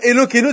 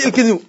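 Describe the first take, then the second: First: The vowel after the L is fully pronounced. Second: The vowel after the L is dropped. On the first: The speaker calls it right. "Au lieu de dire" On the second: The speaker calls it wrong. "tu dis"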